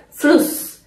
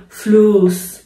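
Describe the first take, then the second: First: فلوس with a short, quick u; German فلوس said as "fluss", brief vowel before the s. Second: فلوس with the u wrongly stretched long; فلوس said as "fluus", vowel held too long. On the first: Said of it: "کوتاه تلفظ بشه". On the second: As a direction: drag out the u in فلوس. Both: Shown as a demonstration.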